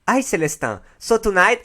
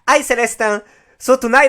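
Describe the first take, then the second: First: It is said in the speaker's usual accent. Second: It is said with an imitated Brazilian accent.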